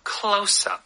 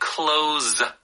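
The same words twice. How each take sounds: First: The consonant in close is a hissing s. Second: The consonant in close is a buzzing z. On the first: The speaker calls it right. "It is the S sound" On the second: The speaker calls it wrong. "So you think it would be the Z sound"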